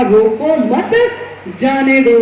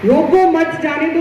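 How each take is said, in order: First: Slow "रोको मत", pause, then "जाने दो"; pause after मत. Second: "रोको" higher, then straight into "मत जाने दो"; old meaning, don't let go. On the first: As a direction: join "मत" to "रोको", break, then release "जाने दो". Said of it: "अब शब्द का अर्थ बदल गया". ("रोको मत" धीरे कहकर रुकें, फिर "जाने दो") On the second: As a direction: run "रोको मत जाने दो" together as an order to stop. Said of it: "एक शब्द आता है रोको". ("रोको" पर ज़ोर, "मत जाने दो" बिना रुके) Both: Shown as a demonstration.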